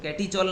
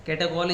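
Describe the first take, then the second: First: Catechol misread as "KET-ee-chol"; wrong pronunciation. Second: Catechol pronounced "KET-e-kol"; correct pronunciation. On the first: Teacher repeating the warning to students, catechol mispronounced with ch. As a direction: say the ch in catechol as in "church". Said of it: "catechol नहीं पढ़ना है". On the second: Teacher confirming the name of benzene diol, catechol with hard k. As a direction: give catechol a k sound, never "chol". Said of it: "catechol is the right pronunciations". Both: Shown as a demonstration.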